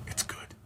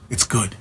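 First: Barely audible whisper. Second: Said in the usual way. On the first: Real, not acted. Streamer muttering to himself that his accents are fine, whispered. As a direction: let it drop right down to a whisper. Trails into whisper, dismissing critics.

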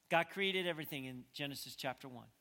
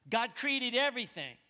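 First: Said in the usual way. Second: High, loud pulpit declaration; loud proclamation. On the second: Real, not acted. Preacher proclaiming creation to the congregation, loudly. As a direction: proclaim it with full force.

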